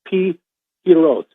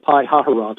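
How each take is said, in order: First: The name is said shorter, without the extra syllable. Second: The name is said longer, with an extra syllable. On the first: This is how it is said in Hebrew. The speaker calls it right. "somebody actually sent me the pronunciation of this today" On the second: This is how it looks when read from the spelling. The speaker calls it wrong. "Looks like Pi Hahiroth, which is the way I've been saying it"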